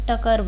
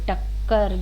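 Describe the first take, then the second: First: The middle k sound is single. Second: The middle k sound is doubled. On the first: The speaker calls it wrong. "अगर एक क मैं हटा दूं इसमें" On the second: The speaker calls it right. "देखिए टक्कर"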